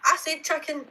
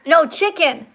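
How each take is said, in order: First: High Scottish protest, chicken close to "chuckin"; Scottish chicken, first vowel near "uh"; Scottish accent. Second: CHICKEN with a short "ih", louder and higher; emphatic "ih" vowel in chicken; corrective chicken. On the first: Real, not acted. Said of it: "you're saying chucking". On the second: Shown as a demonstration. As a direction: correct them firmly: chicken, "CHIK-en". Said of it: "No, chucking something is when you throw it".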